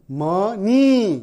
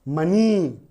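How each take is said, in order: First: मनी very slow, split as म, नी; syllable by syllable. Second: Said in the usual way. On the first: Shown as a demonstration. Teacher showing more than one syllable, मनी slowly broken in two. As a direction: break मनी in two and stretch the नी. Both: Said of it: "एक syllable वाला शब्द नहीं है".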